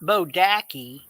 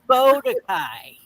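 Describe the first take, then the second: First: The name ends with a 'kee' sound. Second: The name ends with a 'kai' sound. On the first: The speaker calls it wrong. "It's not Bodaki" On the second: The speaker calls it right. "It's Bodakai"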